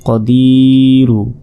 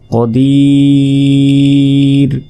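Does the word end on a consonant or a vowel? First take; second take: vowel; consonant. First: The word ends with a short 'u' vowel. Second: A long 'i' is held, then a bare 'r'. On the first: The reading continues without a stop. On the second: The reading pauses at this word.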